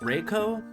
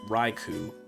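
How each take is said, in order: First: The second syllable has no long oo sound. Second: The second syllable ends in a long oo sound. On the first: The speaker calls it right. "I'm still, like, relearning how to pronounce that Pokemon's name" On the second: The speaker calls it wrong. "for most of my life I said Raikou. Which I now understand makes no sense"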